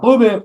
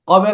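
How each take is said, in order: First: The vowel sounds like a short 'u'. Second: The vowel sounds like an open 'o'. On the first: The speaker calls it right. "কুবে পেশ, একবারে হ্রস্বকার উচ্চারণ" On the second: The speaker calls it wrong. "কবে না"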